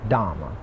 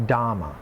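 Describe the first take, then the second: Both takes have the same delivery.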